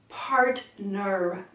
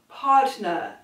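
First: The R sounds are touched very lightly. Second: The R sounds are left off entirely. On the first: "just barely tip on the R's" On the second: "you're just gonna drop the R's"

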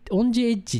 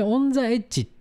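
First: The word 'the' sounds like 'ji'. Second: The word 'the' sounds like 'za'. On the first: It follows the English form. The speaker calls it wrong. "オンジエッジっていう名前で行く予定だった" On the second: It sounds more Japanese. The speaker calls it right. "ザーで行きなさい"

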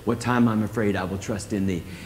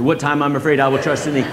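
First: It is said calmly at normal speed. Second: It is said quickly, with rising energy.

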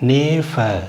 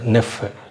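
First: The first vowel is long. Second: The first vowel is short. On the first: The speaker calls it wrong. "நேஃப அப்படி சொல்லக்கூடாது" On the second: The speaker calls it right. "குரில் மாதிரி வைக்கணும்"

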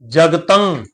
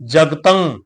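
Both takes have the same delivery.

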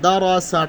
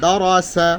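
Both takes have the same delivery.

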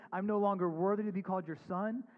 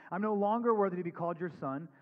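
Both takes have the same delivery.

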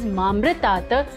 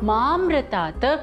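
First: The first syllable ma is said short. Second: The first syllable ma is stretched longer. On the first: It means death or mortality. The speaker calls it wrong. "people mispronounce it as mamritat" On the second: It means immortality. The speaker calls it right. "you have to stretch the ma little longer"

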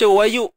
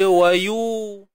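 First: The hamzah is said as a glottal stop. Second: The hamzah becomes a long u vowel. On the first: This is the reading followed here. "Kita baca wayu" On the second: This is the reading of another qiraat. "Baca dengan ibdal mematikan. Hamzah tu diganti dengan huruf waw mat"

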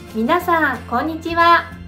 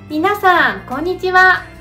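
First: The voice is pitched a little high. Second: The voice is pitched even higher. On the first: "もう少し高くしてみると" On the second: "もう少し高くしてみると"

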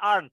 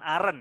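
First: It is said the English way, ending in t. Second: It is said like the Indonesian word aren. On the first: The speaker calls it right. "bacanya aren't ya" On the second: The speaker calls it wrong. "bukan aren ya"

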